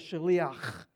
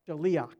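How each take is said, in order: First: The ending has a harsh throaty sound. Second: The ending has no throaty sound. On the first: "it would actually have more phlegm in the back, because it really ends with like, it's like a shaliach" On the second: "I'm going to leave out the phlegm in the back"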